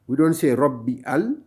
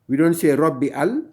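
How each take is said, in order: The two takes are said the same way.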